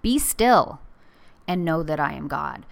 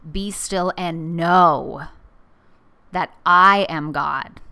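First: The word 'still' is stressed. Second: The word 'know' is stressed. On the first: It is a command to be still. "So be still, like a command from God" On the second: It is a call to know and recognize God. "Or I put the emphasis on the know"

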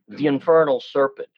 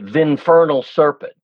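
First: 'The' runs into 'infernal' with a gliding link. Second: 'The' is squeezed into the next syllable, exaggerated. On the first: "what we'll do is probably put a glide in" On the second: "To over-exaggerate, you'd say"

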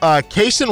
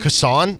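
First: The first syllable sounds like 'kay'. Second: The first syllable sounds like 'cuh'. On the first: "although I just said that wrong" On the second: "It's C-U-H-S-A-N"

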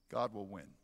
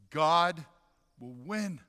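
First: It is said at the softest level. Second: It is said louder than before.

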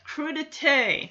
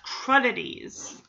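First: The word ends with a 'tay' sound. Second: The word ends with a 'tees' sound. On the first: The speaker calls it right. "Yeah, crudité, not crudities" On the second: The speaker calls it wrong. "they've been pronouncing it wrong this whole time"

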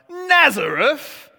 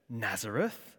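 First: It sounds like a forceful, scornful exclamation. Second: It sounds like a plain, mild question.

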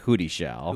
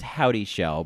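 First: The first part sounds like 'hootie'. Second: The first part sounds like 'howdy'. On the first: This is a playful personal pronunciation of the name. "but I like to pronounce it Hootie Shell" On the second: This is the accepted pronunciation of the name. "it's apparently pronounced Howdy Shell"

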